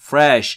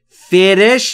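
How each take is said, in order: First: F and r are joined with no vowel. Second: A vowel is inserted between f and r. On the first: The speaker calls it right. "بین F و R صدای وجود نداره" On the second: The speaker calls it wrong. "فرش نمیگم"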